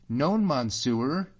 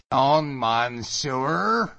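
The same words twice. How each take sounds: First: Badly pronounced French, high and slow; bad French accent. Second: Loud, high, drawn-out mocking echo; mocking mimicry. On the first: Sailor denies speaking English to Allan, incredibly bad French accent. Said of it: "with an incredible bad accent". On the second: Allan mimics the sailor's French, loudly mocking. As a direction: throw the bad French back, stretched and louder. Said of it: "mocking him".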